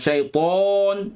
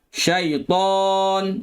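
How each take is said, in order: First: It is said with the lips pushed forward and rounded. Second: It is said with an open mouth and thick sound. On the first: The speaker calls it wrong. "Jangan muncung" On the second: The speaker calls it right. "Buka mulut. Tebalkan"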